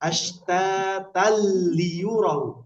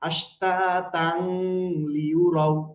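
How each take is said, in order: First: The n sound merges fully into the l. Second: The n sound is kept before the l. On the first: The speaker calls it right. "গুন্না ছাড়া মিলাতে হবে" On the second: The speaker calls it wrong. "এটা কিন্তু পড়া যাচ্ছে না"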